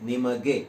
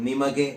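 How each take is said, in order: No difference in how they are said.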